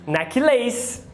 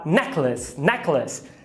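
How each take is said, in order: First: Necklace as necky-LAYS; mistaken Brazilian pronunciation. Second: Necklace as NECK-luhs; schwa in second syllable. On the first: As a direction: say necklace ending in a full "lace". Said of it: "mas não é". (necklace errado, com "leis" no final) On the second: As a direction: stress NECK, reduce lace to luhs in necklace. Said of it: "é um schwa". (necklace com schwa na sílaba átona) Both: Shown as a demonstration.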